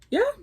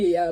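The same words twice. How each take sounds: First: It rises at the end like a question. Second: It is said flat, without a rise.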